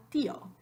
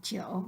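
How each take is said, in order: First: TÍO split as TÍ-o; two-syllable tío. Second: TÍO merged into "tyo"; the wrong tío, I gliding into O; one-syllable tío. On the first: Teacher giving the wanted form, two-syllable TÍ-o. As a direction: stress the í of tío, then a separate o. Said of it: "we want tío". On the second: Teacher naming what we don't want, tío as "tyo". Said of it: "we don't want tío". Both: Shown as a demonstration.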